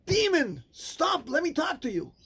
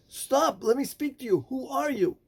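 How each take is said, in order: First: Much higher, exasperated cry; frustrated. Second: Higher, urgent call to a stranger. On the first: Rabbi Akiva, frustrated the man won't stop, cries out sharply. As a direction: snap at him in frustration. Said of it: "in his frustration said". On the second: Rabbi Akiva calls out to the working man, urgent. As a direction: call out to make him stop. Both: Acted.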